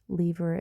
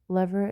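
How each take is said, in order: First: It is said in a British accent. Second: It is said in an American accent. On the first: "lever is the British pronunciation" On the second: "lever is the American pronunciation"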